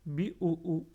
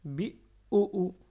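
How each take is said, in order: First: BI OU OU read lightly, no held doubling; without shadda. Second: BI OU OU, slow, higher, middle OU pressed; pressed shadda. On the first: Learners hear it without shadda, BI OU OU unstressed. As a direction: say BI OU OU with no stress on the middle. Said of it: "Si on n'avait pas shadda ici". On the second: Learners hear shadda, middle OU pressed and held back. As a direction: lean hard on the middle OU in BI OU OU and hold it. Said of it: "j'appuie bien sur la". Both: Shown as a demonstration.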